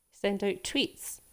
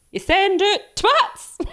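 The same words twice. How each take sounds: First: Said in the usual way. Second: "twats" said loud and high instead of tweets, slow; mum's mispronunciation. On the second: Retold or imitated. Streamer imitates her mum mangling "tweets" as "twats", loud high mock voice.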